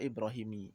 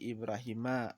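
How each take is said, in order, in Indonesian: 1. Kata ini berakhir dengan vokal 'i'. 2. Kata ini berakhir dengan vokal 'a'. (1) "nggak boleh kita baca Ibrahimi" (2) "Contoh seperti Ibrahima"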